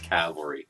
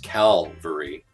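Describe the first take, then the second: First: The L sound comes after the V sound. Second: The L sound comes before the V sound. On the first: The speaker calls it right. "So it is cavalry" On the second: The speaker calls it wrong. "I was saying cavalry as Calvary"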